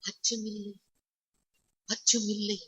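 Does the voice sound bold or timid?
timid. It is said weakly, sounding timid. The speaker sounds afraid despite the words. The speaker calls it wrong. "இப்படி சொன்னீங்கன்னா அச்சம் வந்துரும்"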